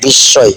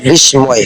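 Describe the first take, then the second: First: বিস্ময় with silent ম and doubled s, "bis-soy"; correct spoken pronunciation. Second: বিস্ময় with the ম sounded, "bis-moy"; spelling pronunciation. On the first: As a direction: say বিস্ময় as "bissoy", no m. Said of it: "কিন্তু উচ্চারণ করতে হবে". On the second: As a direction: say বিস্ময় as written, s then m. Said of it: "শব্দটা আছে বিস্ময়". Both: Shown as a demonstration.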